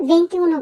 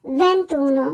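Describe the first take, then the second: First: "ভেন্তিউনো" with ti and u both sounded; wrong unelided form. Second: "ভেন্তুনো" with no i, ven-too-no; correct elided form. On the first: Teacher saying what to avoid, unjoined "ভেন্তিউনো". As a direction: say four syllables in "ভেন্তিউনো". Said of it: "বলবো না". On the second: Teacher repeating the right form, elided "ভেন্তুনো". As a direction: drop the i in "ভেন্তুনো". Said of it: "বলবো". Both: Shown as a demonstration.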